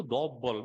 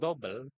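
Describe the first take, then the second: First: "double" as a rounded Filipino "do-bol"; Filipino accent. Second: Said in the usual way. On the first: Shown as a demonstration. Speaker teasing the lecturer with Filipino English, Filipino-accented "double". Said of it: "Saya bilang gitu". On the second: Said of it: "kalau asal ibu tahu orang Filipina".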